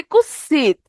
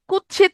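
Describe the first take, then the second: First: Kutsit softened to kussit; simplified kussit pronunciation. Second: Said in the usual way. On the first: Shown as a demonstration. Teacher showing half-tatsama forms to students, simplified kussit. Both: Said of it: "একটু বিকৃতি করে সহজে উচ্চারণের জন্য".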